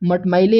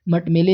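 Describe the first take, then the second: First: The middle vowel is an 'ai' sound. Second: The middle vowel is a plain 'e' sound. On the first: The speaker calls it right. "मटमैले होता है" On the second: The speaker calls it wrong. "मटमेले नहीं"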